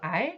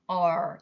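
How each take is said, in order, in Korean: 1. R 소리는 밝고 가벼워요. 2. R 소리는 어둡고 깊어요. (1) "우리나라 말은 아주 밝은 소리죠" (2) "영어의 R은 어둡게"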